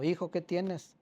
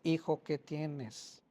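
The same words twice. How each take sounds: First: Said in the usual way. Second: Put-on slow and softer, coaxing the boy; gentle, slow asking. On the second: Father asking his crying son a third time, slow and soft. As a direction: ease it out slowly and softly, like coaxing a hurt child.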